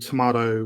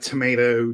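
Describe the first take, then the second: First: It is said the British way. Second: It is said the American way.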